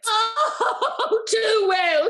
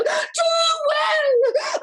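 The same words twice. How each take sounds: First: Higher, louder sobbing cry; half-laughing tearful wail; tearful lament. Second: Much higher, loud crying shout; sobbing shout. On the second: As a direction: wail it out at the peak. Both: Acted. Lady lamenting the betrayal.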